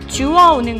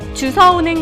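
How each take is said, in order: First: The second syllable starts with a w sound. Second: The second syllable starts with an s sound. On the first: The speaker calls it right. "표준어는 주어" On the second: The speaker calls it wrong. "주서가 아니라"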